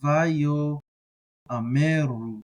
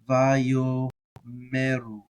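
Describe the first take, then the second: First: A separate 'a' vowel is sounded before 'meru'. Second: No separate vowel is sounded before 'meru'. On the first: "you can do the vayo a" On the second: "the aleph is silent"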